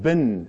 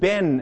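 First: The vowel is short, like in 'bin'. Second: The vowel is open, like in 'Ben'. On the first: "In the United States, that bin, as in B-I-N" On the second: "in Michigan, they pronounce it Ben, as in the name"

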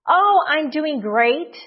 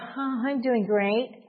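First: It is said in a cheerful, upbeat tone. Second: It is said in a gloomy, unconvincing tone. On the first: The speaker is really doing well. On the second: The speaker is not really doing well.

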